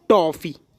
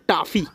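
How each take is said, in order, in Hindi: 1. पहला स्वर खुली 'o' ध्वनि है। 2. पहला स्वर लंबी 'aa' ध्वनि है। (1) "हमने दूसरी भाषा से ले लिया उसको कि अच्छा लगने लगे" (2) "अगर ये ओ नहीं होता तो आप बोलते टाफी"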